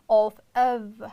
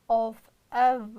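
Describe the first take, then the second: The two takes are said the same way.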